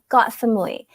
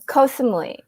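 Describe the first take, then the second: First: The first word is said like 'got'. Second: The first word is said like 'koh'. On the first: The speaker calls it right. "that's the Thai way of saying it" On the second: The speaker calls it wrong. "That's wrong. You don't say it like that"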